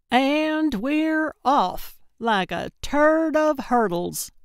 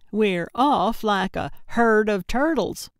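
First: High, drawn-out triumphant announcement; gleeful send-off, slow and ringing. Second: Matter-of-fact correction, little raised in pitch; understated, emphatic repeat for a listener who missed it; insistent restatement. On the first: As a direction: proclaim it grandly, stretching the opening. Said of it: "Gertrude said triumphantly". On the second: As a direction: restate it firmly, as if obvious. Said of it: "I said". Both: A narrator's reading.

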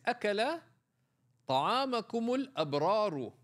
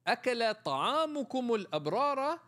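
First: الأبرار ends in -u, al-abraru as the doer; correct reading. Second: الأبرار ends in -a, al-abrara, as if object; wrong reading. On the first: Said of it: "the dua that is recited after eating food". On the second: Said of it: "But if you said". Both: Shown as a demonstration.

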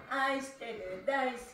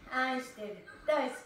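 Both takes have the same delivery.

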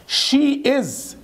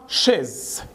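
First: High, drawn-out "she is"; two separate words, "she is"; careful uncontracted "she is"; full form. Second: "she's" as one syllable, "shez"; contracted "she's"; fast reduced form. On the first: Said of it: "بتتنطق بسرعة she's". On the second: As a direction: squeeze she is into "she's". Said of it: "بتتنطق بسرعة". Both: Shown as a demonstration.

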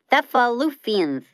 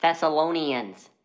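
First: Thessalonians slurred as Thessafoofians; mispronounced. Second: Thessalonians said clearly as thess-a-LOH-nee-ans; correct pronunciation. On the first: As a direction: say Thessalonians with f sounds for the s and n. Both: Acted.

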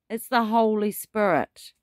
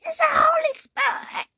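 First: Said in the usual way. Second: Cracking up into a much higher, crying shout; voice breaking. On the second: Pretend. Preacher copying a man whose voice broke, cracking high. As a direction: imitate a voice breaking on "Holy Spirit". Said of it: "I'm not a young man whose voice is breaking".

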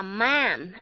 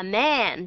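First: "man" said with a wide Vietnamese A vowel; teacher showing the wrong A in "man". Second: "man" said slowly with an E-like vowel, "men"; slow model of the correct "man"; correct short A. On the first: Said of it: "nếu mà nó là A". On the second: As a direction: say "man" the right way, leaning toward E. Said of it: "họ lại đọc là man". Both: Shown as a demonstration.

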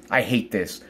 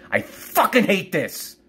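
First: Low, quiet bitterness; real subdued disgust; bitter loathing. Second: High, drawn-out angry outburst; real frustrated fury; angry loathing. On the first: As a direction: say it low, holding the hate in. Venting, low before the outburst. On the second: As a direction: stretch it out, voice jumping up with hate. Repeats it, escalating. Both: Real, not acted.

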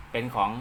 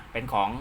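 The two takes are said the same way.

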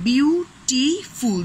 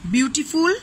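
First: "beautiful" slowly split into beau, ti, ful; three separate syllables. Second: Said in the usual way. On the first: Shown as a demonstration. Teacher counting syllables, "beautiful" broken into beau-ti-ful. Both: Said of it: "there are three syllables".

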